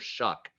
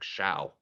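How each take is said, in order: First: The vowel is a short 'uh' sound. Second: The vowel is an 'ow' sound. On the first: The speaker knows the player. The speaker calls it right. "say Tyler Shuck when you're talking about him" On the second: The speaker is reading the name as spelled. The speaker calls it wrong. "It looks like show, like Shao"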